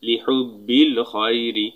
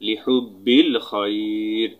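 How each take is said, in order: First: The last word ends with an i vowel. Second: The last word ends on the r consonant.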